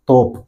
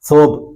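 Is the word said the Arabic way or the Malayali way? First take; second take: Malayali; Arabic. First: The word is said the Malayali-adapted way. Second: The word is said the original Arabic way. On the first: The speaker calls it wrong. "തോപ്പ് എന്ന് മലയാളികൾ പറയും" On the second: The speaker calls it right. "അവർ അവിടെ ഉപയോഗിക്കുന്ന വാക്ക് സൗബ് എന്നാണ്"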